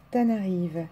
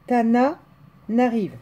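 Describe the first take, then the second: First: Said in the usual way. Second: "Tana n'arrive" in two pieces, higher and louder on "Tana"; syllables split. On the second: Shown as a demonstration. Reader sounding out an old postcard's place name, "Tana n'arrive" split in two. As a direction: break "Tana n'arrive" after "Tana", pausing before the rest.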